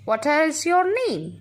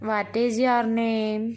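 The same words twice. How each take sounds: First: It is read with an asking, questioning tone. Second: It is read flatly, like a plain statement. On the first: The speaker calls it right. "You have to read in the way of asking" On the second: The speaker calls it wrong. "So we can't read it"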